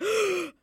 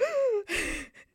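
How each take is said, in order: First: High, loud shocked gasp; mock gasp. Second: High, sharp gasp of shock; imitated gasp. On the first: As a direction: gasp in amazement. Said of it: "no, that's gasping". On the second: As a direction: gasp like you just saw magic. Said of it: "We were like".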